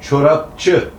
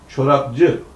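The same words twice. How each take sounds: First: The middle consonants are hard p and ç. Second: The middle consonants are soft b and c. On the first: The speaker calls it wrong. "sondaki C eki setleştirilerek Ç'ye dönüştürülünce bakın ortaya ne çıkıyor" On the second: The speaker calls it right. "Bu mesleği yapan insana çorapçı demeliyiz"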